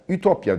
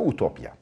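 First: The first vowel is a front rounded ü. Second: The first vowel is a back rounded u. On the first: This is the form commonly used in Turkish, borrowed via French. "Ütopya diyoruz biz ona" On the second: This is the original form of the word. "ama aslında utopya"

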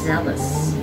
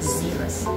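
First: The first vowel sounds like the 'e' in 'bed'. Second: The first vowel sounds like the 'ee' in 'see'. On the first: The speaker calls it right. "it has the same sound with jealous" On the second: The speaker calls it wrong. "Not zealous"

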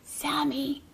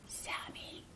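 First: It is said a little louder. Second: It is said in a quiet whisper.

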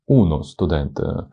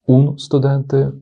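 First: A full article ends in a vowel before the cluster. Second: A short article runs straight into the consonant cluster. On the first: The speaker calls it right. "воно звучить набагато плавніше" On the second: The speaker calls it wrong. "аж язик заплітається"

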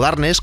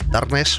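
First: It is pronounced in a Spanish way. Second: It is pronounced in an English way.

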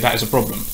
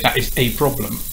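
First: The vowel-initial words are joined smoothly, with no catch in the throat. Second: The vowel-initial words start with a catch in the throat, separating them. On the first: The speaker calls it right. "You say" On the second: The speaker calls it wrong. "So you don't say"

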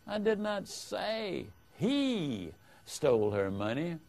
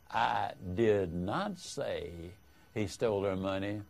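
First: The stress falls on the word 'he'. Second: The stress falls on the word 'not'. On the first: Someone other than the accused stole it. "implies that someone other than the accused stole the money" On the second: The speaker firmly denies saying it. "is a vigorous denial that you said it"

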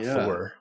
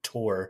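First: It starts with a TH sound. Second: It starts with a plain T sound. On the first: The speaker calls it wrong. "not Thor" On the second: The speaker calls it right. "kind of like Tor"

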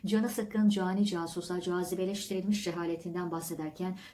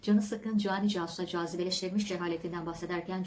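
First: The phrase is read at a slow pace. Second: The phrase is read at a medium pace.

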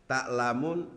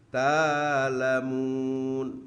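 First: A glottal stop follows the first vowel. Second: The first vowel is long, with no stop.

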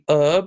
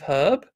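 First: It is said in an American pronunciation. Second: It is said in a British pronunciation. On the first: The speaker calls it wrong. "Americans say herb" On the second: The speaker calls it right. "instead of herb"

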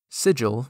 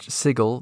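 First: The g is soft, like a j. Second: The g is hard, like in go. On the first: It means a magical symbol. "Sigil, meaning glyph, has a soft g" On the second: It names the city. "sigil, the city, has a hard g"

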